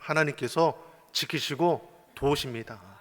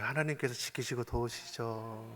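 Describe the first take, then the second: First: It is said in a strong, bold voice. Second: It is said in a weak, dying voice.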